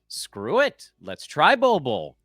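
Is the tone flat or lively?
lively. It is said in a lively, excited tone.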